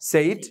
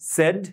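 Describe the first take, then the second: First: The vowel glides from e to i. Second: The vowel is a single pure sound. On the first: The speaker calls it wrong. "আর এটারে বলে হচ্ছে যে সেইড" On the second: The speaker calls it right. "But এটা হবে সেড"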